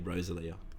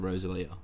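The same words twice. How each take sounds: First: The stress falls on the ro syllable. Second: The stress falls on the li syllable. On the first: "was on the O, it'd be Rosalia" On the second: "So that's when you put the emphasis"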